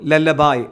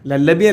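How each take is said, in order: First: The word ends with an 'eye' sound. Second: The word ends with an 'ee' sound. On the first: The speaker calls it right. "ഉച്ചാരണം ശ്രദ്ധിച്ചോളൂ, ലല്ലബായ് എന്നാണ്" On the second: The speaker calls it wrong. "ലല്ലബി അല്ല കേട്ടോ"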